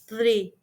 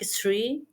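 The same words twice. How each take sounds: First: The word begins with a th sound. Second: The word begins with an s sound. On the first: The speaker calls it right. "the correct pronunciation is three" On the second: The speaker calls it wrong. "the sound with S or T"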